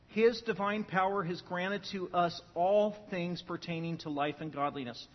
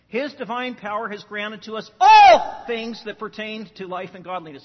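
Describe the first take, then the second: First: No word gets special stress. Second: The word all is stressed.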